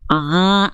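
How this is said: The vowel sounds nasal, resonating through the nose. The speaker calls it wrong. "itu suara A-nya masuk ke dalam rongga hidung"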